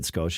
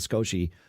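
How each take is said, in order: First: The name ends on the consonant sound. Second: The name ends with an added vowel sound. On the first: The speaker calls it right. "that's the way it's pronounced" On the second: The speaker calls it wrong. "I don't know why I started saying Scoshi"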